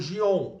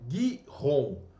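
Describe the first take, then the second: First: It starts with a soft G sound. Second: It starts with a hard G sound. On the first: This is the familiar form of the name. The speaker calls it wrong. "Você conhece como Gion" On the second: This is the original form of the name. The speaker calls it right. "mas o nome original é Gihon"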